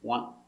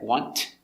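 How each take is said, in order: First: The final T is almost silent. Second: The final T is pronounced clearly and hard. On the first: The speaker calls it right. "We pronounce it almost silent" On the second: The speaker calls it wrong. "We don't pronounce it hard like want"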